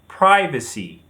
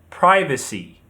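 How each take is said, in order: First: American pronunciation, stressed on the first syllable. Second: American pronunciation, stressed on the first syllable.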